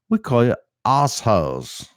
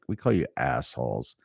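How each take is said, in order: First: The R is dropped, imitating a non-American accent. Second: The R is pronounced strongly, American style. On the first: "He's like, ... I'm just gonna not go hard on the R" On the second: "He won't be like"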